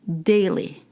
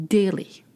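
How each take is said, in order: No difference in how they are said.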